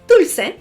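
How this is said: It is said in a Latin American Spanish accent.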